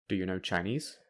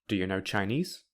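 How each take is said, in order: Both takes have the same delivery.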